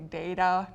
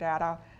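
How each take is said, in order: First: The first vowel is a long A sound. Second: The first vowel is not a long A. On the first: "I'm going to say data" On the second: "not data"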